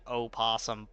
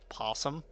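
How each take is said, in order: First: The word begins with an audible O sound. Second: The word begins directly with the P sound. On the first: "It's like it's opossum because you spelt it opossum" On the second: "but it is possum, and the O is just silent"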